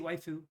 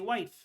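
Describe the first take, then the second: First: The word ends with an added fu syllable. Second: The word ends on the f sound. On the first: The speaker calls it wrong. "You don't say waifu" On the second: The speaker calls it right. "You say wife English"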